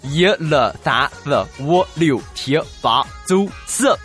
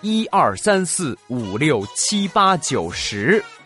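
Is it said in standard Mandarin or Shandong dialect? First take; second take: Shandong dialect; standard Mandarin. First: It is said in Shandong dialect. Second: It is said in standard Mandarin.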